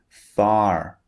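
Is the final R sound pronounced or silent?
pronounced. It ends with an audible R sound.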